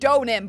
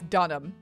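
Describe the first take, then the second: First: The first vowel is an O sound. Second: The first vowel is not an O sound. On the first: This is how it is supposed to sound. "It should be O" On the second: This is how it is actually said. "but I think it's Dunham"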